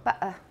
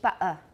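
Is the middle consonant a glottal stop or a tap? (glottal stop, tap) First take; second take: glottal stop; glottal stop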